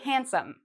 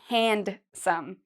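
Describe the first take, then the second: First: The D sound is left out. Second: The D sound is pronounced clearly. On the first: The speaker calls it right. "We say handsome. So it's as if this D isn't there" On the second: The speaker calls it wrong. "we don't say handsome"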